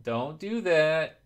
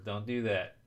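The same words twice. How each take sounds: First: Slow, firm and emphatic; stern warning. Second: Said in the usual way. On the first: Real, not acted. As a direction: drag it out as a warning. Warning chat about follower-begging.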